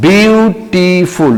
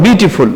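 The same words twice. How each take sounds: First: বিউটিফুল very slowly in three stretched beats, বিউ–টি–ফুল; syllable by syllable. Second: Said in the usual way. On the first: Shown as a demonstration. Teacher showing students many syllables, বিউটিফুল slowly split up. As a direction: draw out and separate each syllable of বিউটিফুল. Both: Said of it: "syllable আলাদা".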